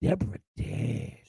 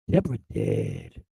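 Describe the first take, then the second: First: Softer, slow mumbled Deborah dead; lightly voiced vacant old man; imitating dazed father. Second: Deborah dead dropped far lower, slow and hollow, falling off at the end; deep hollow mock of a vacant old man; imitating dazed father. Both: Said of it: "he whirled and go like this".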